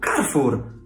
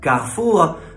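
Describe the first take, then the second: First: The name is said with Polish pronunciation. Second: The name is said with French pronunciation. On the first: "po polsku Carrefour" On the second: "Po francusku Carrefour"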